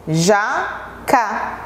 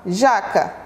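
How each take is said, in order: First: "Jaca" said as two separate syllables, Ja, ca; split into syllables. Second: Said in the usual way. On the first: Shown as a demonstration. Teacher showing pupils each picture's first syllable, "Jaca" split in two. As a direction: break "Jaca" in two with a clear pause after Ja. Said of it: "primeiras sílabas de cada figura". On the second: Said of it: "Nós formamos a palavra".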